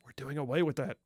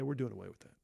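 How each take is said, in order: First: It is said loudly. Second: It is said quietly, mumbled.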